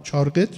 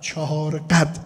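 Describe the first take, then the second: First: چهار قد run together as "châr-ghet"; colloquial contracted pronunciation. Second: چهار قد slow and full, "cha-hâr ghad"; full careful pronunciation. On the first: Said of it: "شما میگید؟". (تلفظ عامیانه: «چارقِد») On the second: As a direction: spell out چهار قد as two unhurried words. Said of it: "بله، چهار قد". (تلفظ کامل و شمرده: «چَهار قَد») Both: Shown as a demonstration.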